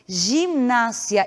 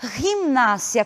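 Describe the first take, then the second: First: The G is a soft zh-like sound. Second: The G is a guttural throat sound. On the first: The speaker calls it wrong. "nós não pronunciamos gimnásia" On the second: The speaker calls it right. "e sim gimnásia, com o G, a pronúncia gutural"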